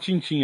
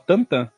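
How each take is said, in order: First: The name has a nasal 'ee'-like vowel. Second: The name has a nasal 'ah'-like vowel. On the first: The speaker calls it wrong. "não é falar Tintin" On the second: The speaker calls it right. "era pra falar Tantan"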